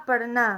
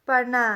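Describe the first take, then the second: Both takes have the same delivery.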